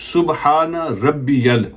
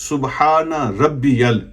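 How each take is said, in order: The two takes are said the same way.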